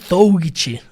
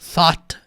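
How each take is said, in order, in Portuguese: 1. Mais das letras escritas são pronunciadas. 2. Só th, um o simples e um t suave no final. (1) "Por mais que tenha todas essas letras aqui, não é thought" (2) "É só o som do T H, o som do O e o som do T sutil no final"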